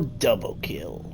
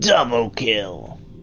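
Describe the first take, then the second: First: It is said in his normal voice. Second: It is said like the Halo announcer.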